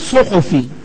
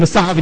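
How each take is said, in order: First: The word is said with u-vowels, suhufi. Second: The word is said with a-vowels, sahafi. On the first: The speaker calls it right. "اسمها صحفي. لانه علمه ياخذه عن الصحف" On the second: The speaker calls it wrong. "كلمه الصحفي دي غلط اصلا"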